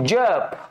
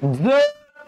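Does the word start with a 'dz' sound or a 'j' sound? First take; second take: j; dz. First: The first consonant is a 'j' sound. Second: The first consonant is a 'dz' sound. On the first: Chanting prayers. "मंत्रोच्चार बरोबर असा उच्चार करता तो असतो तुमचा तालव्य" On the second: Take care. "तो तुमचा असतो दंत तालव्य उच्चार"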